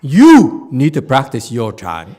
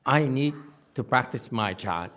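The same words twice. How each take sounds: First: "You" punched louder and drawn out, slowly; stress on YOU. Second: Light stress on "I", calm and low on "to practice my Chan"; quiet, inward "I need to practice my Chan". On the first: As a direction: lean hard on "You", slow and pointed. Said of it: "Mine is like". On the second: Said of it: "His is more like". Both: Retold or imitated.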